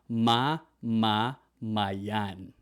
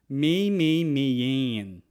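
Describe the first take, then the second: First: The first vowels sound like 'ah'. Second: The first vowels sound like 'ay'. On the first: The speaker calls it right. "It's always ma ma mayan" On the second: The speaker calls it wrong. "it's never may may mayan"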